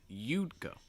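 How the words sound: The stress falls on the first word. "Stressing you'd"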